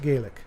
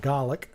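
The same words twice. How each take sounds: First: The word is pronounced the Irish way. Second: The word is pronounced the Scottish way. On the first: "Irish pronounce it Gaelic" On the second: "Scottish pronounce it Gaelic"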